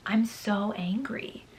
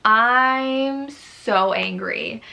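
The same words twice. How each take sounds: First: Soft whisper, slow; slow whispered confession of anger. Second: Stretched-out, slow complaint; slow exasperated moan; drawn-out angry. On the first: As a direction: hiss the words under your breath. Whispered frustration after review. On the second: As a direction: drag out every word in frustration. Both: Real, not acted.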